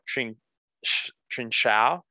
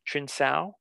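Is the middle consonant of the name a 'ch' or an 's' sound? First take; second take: ch; s. First: The middle consonant sounds like ch. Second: The middle consonant sounds like s. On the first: "I think it's pronounced like Trinchao or Trinsao" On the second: "The C is pronounced like an S"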